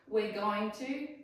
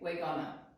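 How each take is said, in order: First: Going to is said in full. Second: Going to is reduced to gonna. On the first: The speaker calls it right. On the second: The speaker calls it wrong.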